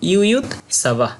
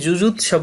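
First: The word begins with a 'y' sound. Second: The word begins with a 'j' sound. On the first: The speaker calls it right. "এর সঠিক উচ্চারণ হবে ইউ ইউ" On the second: The speaker calls it wrong. "আমরা এটা দেখে যুযুৎ সব অনেকেই বলি, কিন্তু হবে না।"

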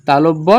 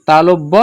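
No difference in how they are said.

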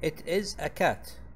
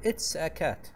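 First: It is is said as two full words. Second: It is is contracted into one word.

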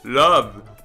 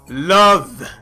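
First: The word is said in a deep voice. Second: The word is said in a normal voice. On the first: The speaker calls it right. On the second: The speaker calls it wrong.

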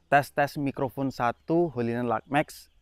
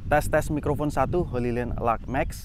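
First: Outdoor background noise is reduced behind the voice. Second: Outdoor background noise is clearly heard behind the voice.

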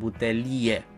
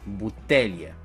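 First: The stress falls on the syllable li. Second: The stress falls on the syllable te. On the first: The speaker calls it wrong. "Deci nu este corect să spunem butelie" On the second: The speaker calls it right. "Accentul se pune pe T și nu pe li"

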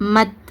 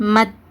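Both takes have the same delivery.

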